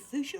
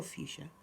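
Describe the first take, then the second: First: "fuchsia" said FOO-shuh, without a y-glide; first pronunciation. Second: "fuchsia" said FYOO-shuh, with a y-glide; alternative pronunciation. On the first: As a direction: say "fuchsia" with a plain oo after the f. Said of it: "that might be my southern accent". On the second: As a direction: say "fuchsia" with a few-sound at the start. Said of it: "Is it fuchsia or fuchsia?". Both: Shown as a demonstration.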